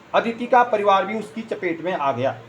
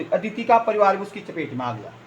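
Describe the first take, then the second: The two takes are said the same way.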